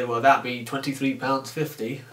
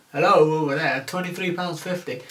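First: Said in the usual way. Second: Calling out. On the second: Retold or imitated. Calling to a customer at another till.

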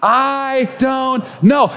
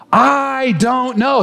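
First: Called-out I don't know. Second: Slow "I don't know" with a gentle rise on "know". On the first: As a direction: lead the room in saying it aloud. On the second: Pastor models the phrase before the church repeats it. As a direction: model the words slowly for the congregation. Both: Shown as a demonstration. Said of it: "Say it with me".

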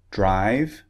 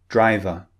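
First: "Drive" as one syllable, rising tune; without schwa. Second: "driver" ending in "uh", falling tune; with added schwa. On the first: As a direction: model "Drive" with no "uh" after the v. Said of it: "words that don't contain the sound". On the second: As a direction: model "driver" with a weak "uh" after the v. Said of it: "have an extra sound". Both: Shown as a demonstration.

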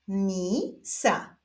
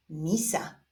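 First: Stretched first syllable, pause, then second; drawn-out, divided syllables; syllable reading. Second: Said in the usual way. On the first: Shown as a demonstration. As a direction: read it slowly as two separate syllables. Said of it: "doczytujemy sylabę różową". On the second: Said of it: "połączenia tych dwóch sylab wyjdzie nam wyraz".

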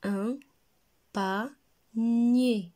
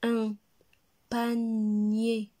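First: "panier" split as pa, pause, nnn-yé; syllable by syllable. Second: "Un panier" with "panier" in one piece, long n: pannn-yé; drawn-out word reading. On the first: Teacher repeats for children, "panier" split in two syllables. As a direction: pause after "Un" and after pa, then hold the loud n of nier. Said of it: "deux syllabes". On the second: Teacher models for repeating, "panier" stretched and joined. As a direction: pause after "Un", then stretch "panier" without a break. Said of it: "Répétez". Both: Shown as a demonstration.

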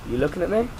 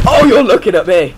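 First: "looking at me" softly rising to the end; questioning. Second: High, loud cry falling at the end; alarmed exclamation. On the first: Gamer wondering if enemy spotted them, questioning. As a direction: ask it with a rise on "me". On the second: Gamer realising enemy spotted them, alarmed shout. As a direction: burst out in sudden alarm. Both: Real, not acted.

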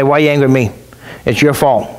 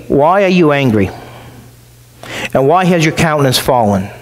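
First: Mild mock irritation, low and curt; a hint of snapping back at someone; impatient retort. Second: Calm, patient question, voice kept low; patient reasoning. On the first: Someone losing patience with an angry person, mildly irritated. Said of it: "then you're not so patient with them". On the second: Acted. God patiently asking Cain why he is angry, calm. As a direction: reason gently with a stubborn son. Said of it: "He's trying to reason with him".

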